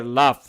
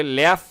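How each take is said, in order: First: লাফ with a broad British ah; লাফ with a long back a, British style; British laugh. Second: ল্যাফ with a flat American a, as in cat; ল্যাফ with an open front a, American style; American laugh. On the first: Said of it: "ব্রিটিশরা বলে লাফ". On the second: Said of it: "আমেরিকানরা বলে ল্যাফ". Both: Shown as a demonstration.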